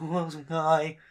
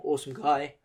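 First: Replaying the cracked awesome guy with a laugh; mock cracked voice; imitating the voice crack. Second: Real crack in the voice, unplanned. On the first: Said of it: "I was like". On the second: Real, not acted. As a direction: voice breaks on awesome guy. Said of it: "Oh, my voice broke like that then".

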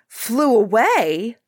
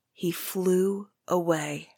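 First: Slow, louder startled echo of flew away; the king catches the words in shock; startled king repeating the seer. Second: Said in the usual way. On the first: Acted. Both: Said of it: "cried the king, startled".

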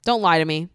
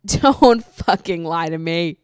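First: Said in the usual way. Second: Louder, slow, half-laughing warning; mock stern. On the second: Real, not acted. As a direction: drag it out like a playful scolding. Scolding internet toughies.

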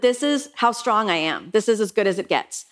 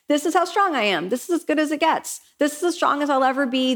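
First: Said in the usual way. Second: Pitched up, mock-smug "This is how strong I am"; a self-satisfied, pitched-up echo of "This is as good as it gets"; higher smug restating. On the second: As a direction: parrot your own smug belief, higher. Mocking her own limits.

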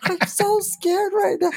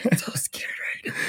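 First: High, slow mock-frightened voice; hammed-up fright; mock scared. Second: Scared whisper; mock-fearful whisper. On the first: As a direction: play up being scared of being overheard. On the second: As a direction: whisper it like someone might hear.

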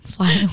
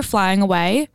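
First: An odd, put-on lilt on flying away; said funny. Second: Said in the usual way. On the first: Telling her friend about the trip, a funny odd lilt. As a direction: give flying away a strange, silly twist of the voice. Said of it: "Sounds funny". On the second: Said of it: "I don't know why I said it like that".

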